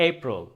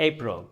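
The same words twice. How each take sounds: Both takes have the same delivery.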